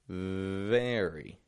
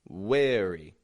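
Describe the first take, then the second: First: The word begins with a V sound. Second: The word begins with a W sound. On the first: The speaker calls it right. "Only the bottom lip is lightly touching the top teeth" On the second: The speaker calls it wrong. "or a W"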